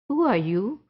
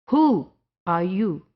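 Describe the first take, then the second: First: The word 'who' is said without extra stress. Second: The word 'who' is said with strong stress.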